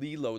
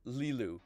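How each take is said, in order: First: The name ends in an 'oh' vowel. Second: The name ends in an 'oo' vowel. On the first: The speaker calls it wrong. "I was calling them Lilo the whole time" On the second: The speaker calls it right. "their name is Lilu"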